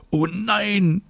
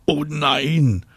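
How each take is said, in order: First: Very high drawn-out groan; high whiny groan of dismay. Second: Drawn-out, higher groan of protest; long higher-pitched groan. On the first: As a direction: moan it in protest, pitched way up. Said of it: "stöhnt David". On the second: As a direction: moan it in dismay, stretched out. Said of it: "stöhnt Anna". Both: A narrator's reading.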